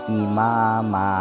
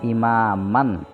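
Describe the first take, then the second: First: The word ends on a long vowel, no n. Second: The word ends with an n sound. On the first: The speaker calls it right. "Cara membacanya imama" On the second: The speaker calls it wrong. "bukan imaman"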